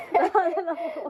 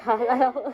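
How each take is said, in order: First: Excited. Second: Laughing. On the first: Repeated, higher and louder. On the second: Laughs before spicy challenge. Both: Real, not acted.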